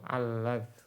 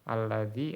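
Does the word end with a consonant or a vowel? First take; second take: consonant; vowel. First: The word ends on the consonant with no vowel. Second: The word ends with a short i vowel. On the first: The letter before the dropped ya takes sukun. "bisa sukun" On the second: The letter before the dropped ya keeps its kasra. "bisa dikasroh"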